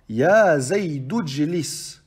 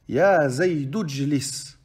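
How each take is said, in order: First: The initial vowel is dropped, linking straight into jlis. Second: The initial vowel is dropped, linking straight into jlis.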